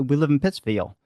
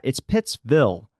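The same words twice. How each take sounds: First: "Pittsfield" ending in a twangy "-veal" glide; Baltimore accent. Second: "Pittsville" with a short, plain "vil" ending; standard pronunciation, corrected. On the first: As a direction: let the twang stretch the end of "Pittsfield". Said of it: "you say that, s-, say where we live". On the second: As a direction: slowly spell out "Pittsville", ending on a clean "vil". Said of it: "Why are you saying it like that?". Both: Retold or imitated.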